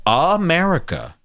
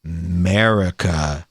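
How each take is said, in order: First: Said in the usual way. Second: America cut to a low, slow MURR-ica; America said slowly without its opening A; mocked hashtag slang. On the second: Shown as a demonstration. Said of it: "they say it with a little accent".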